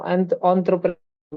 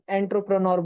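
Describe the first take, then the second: First: It begins with an 'on' sound, French-like. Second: It begins with an 'en' sound, anglicized. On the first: This is how highly educated English speakers say it. "जो ज्यादा पढ़े लिखे English इंग्रज लोग रहते हैं ना, तो उसको आंत्रप्रेन्योर बोलते हैं" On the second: This is how ordinary local speakers say it. "हम लोग उसको एंटरप्रेन्योर बोल देंगे"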